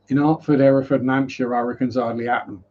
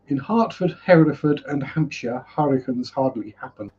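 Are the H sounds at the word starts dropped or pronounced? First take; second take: dropped; pronounced. First: The H sounds at the word starts are dropped. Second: Every H at the word starts is pronounced. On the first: "in actual English, ... See, I drop H's" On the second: "is the correct pronunciation"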